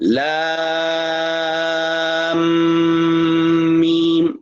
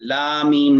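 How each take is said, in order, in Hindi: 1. अंतिम m को अगले शब्द से पहले नासिका से रोका जाता है। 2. दोनों शब्द बिना रुके एक साथ बोले जाते हैं। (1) "ठहरना है गुन्ने के साथ" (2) "लामीम नहीं कहना"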